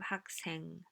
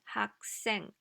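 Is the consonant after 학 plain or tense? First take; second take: plain; tense. First: The consonant after 학 is plain and soft. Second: The consonant after 학 is tense and strong. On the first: The speaker calls it wrong. "instead of 학생" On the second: The speaker calls it right. "It's 학생"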